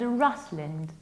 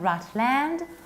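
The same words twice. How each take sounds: First: The final syllable is reduced. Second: The final syllable is full, like 'land'. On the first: The speaker calls it right. "but Rutland" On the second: The speaker calls it wrong. "not Rutland"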